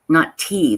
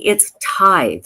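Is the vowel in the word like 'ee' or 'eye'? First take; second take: ee; eye. First: The vowel sounds like 'ee', ending in 'th'. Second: The vowel sounds like 'eye', ending in 'th'. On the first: The speaker calls it wrong. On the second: The speaker calls it right. "it's tithe, right? Like tithing"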